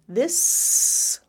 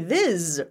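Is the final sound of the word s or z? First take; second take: s; z. First: The word ends in a hissing s sound. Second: The word ends in a buzzing z sound. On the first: The speaker calls it right. "like a snake" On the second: The speaker calls it wrong. "it should be z. ... It should be this, right?"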